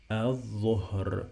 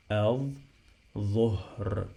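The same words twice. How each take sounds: First: "Al-dhuhr" as one word, l silent, th doubled; Arabic word model. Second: "al-dhuhr" stretched slowly, th held, h and r sounded; drawn-out repeat. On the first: Teacher models the finished word, careful doubled th. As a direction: say "Al-dhuhr" connected, ending in h and r. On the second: Teacher repeats for students, slow and drawn out. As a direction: break "al-dhuhr" into long syllables, l silent. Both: Shown as a demonstration. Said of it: "Okay, again".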